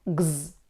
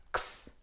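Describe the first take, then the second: First: X said as a voiced "gz"; letter X as gz. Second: X said as a voiceless "ks"; letter X as ks. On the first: Teacher showing learners how X sounds, voiced "gz". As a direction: say X as a buzzing "gz". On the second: Teacher showing learners how X sounds, voiceless "ks". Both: Shown as a demonstration. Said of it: "we pronounce it".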